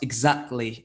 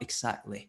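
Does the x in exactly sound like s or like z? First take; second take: z; s. First: The x is said with a z sound. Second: The x is said with an s sound. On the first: The speaker calls it right. "emphasize that z sound" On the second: The speaker calls it wrong. "less stress on the X s, s sound"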